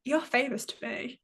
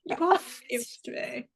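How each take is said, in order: First: Said in the usual way. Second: Are spelled out and leaned on; stress on are. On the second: Shown as a demonstration. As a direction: hit the word are, no contraction.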